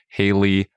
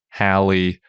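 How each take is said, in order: First: The first syllable rhymes with day. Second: The first syllable rhymes with pal. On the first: "They rhyme with Daly"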